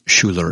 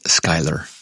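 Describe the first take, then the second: First: The name sounds like 'Schuller'. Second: The name sounds like 'Schuyler'. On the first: The speaker calls it wrong. "it's not Schuller" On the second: The speaker calls it right. "it's Schuyler"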